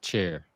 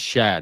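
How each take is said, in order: First: It ends in an 'air' sound with r. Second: It ends in an open 'ah' with no r. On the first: The speaker calls it wrong. "not chair" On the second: The speaker calls it right. "And it's Sha"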